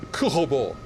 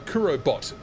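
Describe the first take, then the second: First: The name is said in a French way. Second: The name is said in an English way. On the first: "as you're French, maybe it's" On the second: "I was calling you uh"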